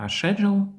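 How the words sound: The word is said with a British pronunciation. "є більш британською вимовою"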